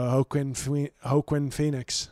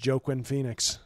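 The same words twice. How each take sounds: First: The first name begins with an H sound. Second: The first name begins with a J sound. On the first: The speaker calls it right. "The J, I think, is pronounced like an H" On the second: The speaker calls it wrong. "I don't think his name is Joaquin Phoenix"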